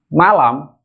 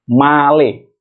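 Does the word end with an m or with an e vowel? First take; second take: m; e vowel. First: The word ends with an am sound. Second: The word ends with an e vowel. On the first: "berakhiran kata am" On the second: "akan dirubah menjadi male"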